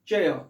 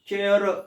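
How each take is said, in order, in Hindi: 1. इस शब्द के अंत में र की कोई ध्वनि नहीं है। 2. इस शब्द के अंत में र की स्पष्ट ध्वनि सुनाई देती है। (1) "उच्चारण क्या करेंगे हम?" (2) "लोग क्या उच्चारण करते हैं भारतीय लोग? चेयर ऐसा करते हैं, र का उच्चारण करते हैं"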